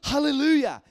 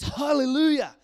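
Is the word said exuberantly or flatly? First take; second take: exuberantly; exuberantly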